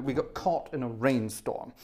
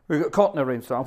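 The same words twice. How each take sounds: First: Said in the usual way. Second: Louder, stressing caught; repeated with a louder punch on caught; emphatic repeat. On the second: Shown as a demonstration. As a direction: say it again, harder, for emphasis.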